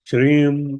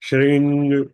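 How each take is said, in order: First: The word ends with an m sound. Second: The word ends with an ng sound. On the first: "श्रीम करके भी उच्चारण किया जा सकता है" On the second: "श्रिंग करके भी इसको बोला जा सकता है"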